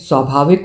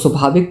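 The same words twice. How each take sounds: First: The word is pronounced in its standard form. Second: The word is pronounced in a distorted form. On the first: The speaker calls it right. "शुद्ध उच्चारण न कर पाने वाले" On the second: The speaker calls it wrong. "स्वाभाविक बोल रही है"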